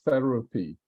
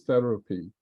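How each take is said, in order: First: It begins with a TH sound. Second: The same.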